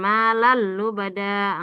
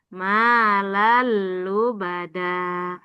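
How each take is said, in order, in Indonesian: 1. Lam dibaca terburu-buru atau ditekan terlalu keras. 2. Lam dibaca dengan panjang yang sedang dan rata. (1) "Bukan ... Enggak terlalu cepat atau terlalu ditekan" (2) "Dia sedang-sedang saja"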